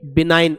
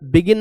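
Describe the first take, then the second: First: The g is silent, said bi-nine. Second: A hard g is sounded, said bi-gin. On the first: The speaker calls it right. "बिनाइन पढ़ेंगे इसे" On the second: The speaker calls it wrong. "बिगिन नहीं"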